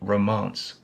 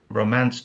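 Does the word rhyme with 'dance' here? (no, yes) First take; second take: yes; no. First: The vowel is changed to rhyme with dance. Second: The vowel does not rhyme with dance. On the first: "to romance" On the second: "he changed romance"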